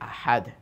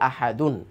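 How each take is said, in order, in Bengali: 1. শব্দটি শেষে কোনো অতিরিক্ত অংশ ছাড়াই শেষ হয়। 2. শব্দটি শেষে যুক্ত '-un' অংশ নিয়ে শেষ হয়। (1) "ওয়াকফ করে" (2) "ওয়াকফ না করলে"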